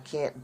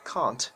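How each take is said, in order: First: It is said with an American accent. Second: It is said with a British accent. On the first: The speaker calls it wrong. "that's American English" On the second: The speaker calls it right. "correct yourself, it's can't"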